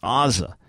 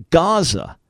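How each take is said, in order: First: "Aza", the Hebrew form, starting on an open vowel. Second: "Gaza" opening on a clear gamma G; Greek Gaza with G. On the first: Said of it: "in Hebrew it's Aza". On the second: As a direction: say "Gaza" with a hard G at the start, as in Greek. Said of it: "with a G, with a gamma in Greek". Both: Shown as a demonstration.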